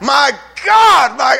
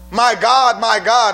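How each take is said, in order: First: It is said in anguished agony. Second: It is said calmly, without anguish.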